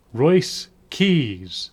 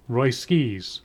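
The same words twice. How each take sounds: First: "Royce Keys" as two separate words, pause between; careful name pronunciation. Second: "Roy Skis" with the S moved onto the second word; misheard name. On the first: Introducing a new wrestler's name, "Royce Keys" carefully separated. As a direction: say "Royce Keys" slowly, the S closing "Royce". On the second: Showing how the wrestler's name gets misheard, "Roy Skis" with shifted S. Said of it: "if you say it too fast". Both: Shown as a demonstration.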